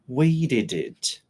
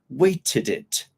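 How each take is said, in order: First: The T is soft, almost like a D. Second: The T is pronounced clearly and strongly. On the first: "when I say this" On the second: "The British pronunciation there, it's a bit different"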